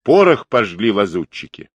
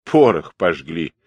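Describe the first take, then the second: First: Said in the usual way. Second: Lower-pitched mocking echo; wry scoff. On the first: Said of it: "сказал Тимошкин сын". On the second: A narrator's reading. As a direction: throw the words back with a smirk. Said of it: "усмехнулся казак". (насмешливо, пониженным тоном)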